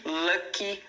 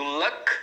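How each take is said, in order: First: LUCKY with a clear final "ee"; two syllables. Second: LUCK ending on the K, no vowel after; one syllable. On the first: Teacher contrasts adjective with noun, two-syllable pronunciation. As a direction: say "lucky" slowly as lu-kee. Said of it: "que são duas sílabas". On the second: Teacher contrasts noun with adjective, one-syllable pronunciation. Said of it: "que é uma sílaba". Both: Shown as a demonstration.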